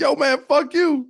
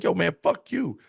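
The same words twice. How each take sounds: First: Much higher, louder, slower addict voice; crackhead voice. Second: High, hostile street addict voice; crackhead voice. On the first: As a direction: stretch it out as a wired crackhead. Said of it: "crackhead voice redo". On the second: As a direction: sneer it like a twitchy addict. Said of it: "how good I did my crackhead voice". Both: Retold or imitated.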